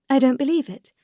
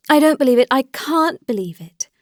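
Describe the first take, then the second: First: Higher-pitched, restrained denial; disbelieving. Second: Higher, louder emphatic denial; vehement disbelief. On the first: Dolly answers Alexei's accusation against Anna, in restrained disbelief. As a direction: refuse it in a raised pitch, without more volume. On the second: Dolly insists to Alexei about Anna, in vehement disbelief. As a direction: insist forcefully, hitting the first words hard. Dolly refuses it, more forcefully. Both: A narrator's reading.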